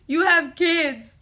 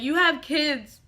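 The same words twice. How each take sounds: First: Louder, slower insistent repeat; emphatic repeat. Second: Said in the usual way. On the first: Retold or imitated. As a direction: press the point harder. Pleading with uncle on phone.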